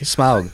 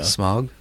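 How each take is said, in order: First: The vowel glides like 'ow', sounding the u. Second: The vowel is a plain 'o' like smog. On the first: The speaker calls it right. "You got to say the U" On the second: The speaker calls it wrong. "You don't say smog. It's not an O"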